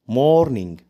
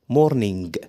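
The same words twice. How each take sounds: First: The word ends without a hard g sound. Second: The word ends with a hard g sound. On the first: The speaker calls it right. "لو جه في اخر الكلمه حرف الجي مش بيتنطق" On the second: The speaker calls it wrong. "لا لا مش بتنطقها صح، بتنطقها غلط. ما اسمهاش مورنينج"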